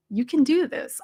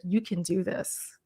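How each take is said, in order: First: Higher, rising cheer on "do"; bright rising pep talk; upbeat encouragement. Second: Soft, slow reassurance; gentle coaching murmur; calm encouragement. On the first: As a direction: pump them up. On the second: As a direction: quietly tell them they can do it. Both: Shown as a demonstration. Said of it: "I'll even tell them in the video".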